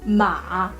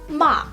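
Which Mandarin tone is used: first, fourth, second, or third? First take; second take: third; fourth. First: The pitch dips low and then rises. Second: The pitch falls sharply from high to low. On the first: "and then ma" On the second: "and then ma"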